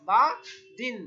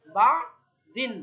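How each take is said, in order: First: Said in the usual way. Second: বাদিন stretched slowly and loud; teacher modelling বাদিন slowly; slow model word. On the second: Shown as a demonstration. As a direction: hold each syllable of বাদিন. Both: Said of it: "আমরা দুই জের দিয়ে practice করি".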